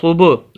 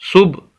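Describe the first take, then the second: First: The b sound bounces with a slight echo. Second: The b sound stops abruptly without echo. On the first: The speaker calls it right. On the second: The speaker calls it wrong.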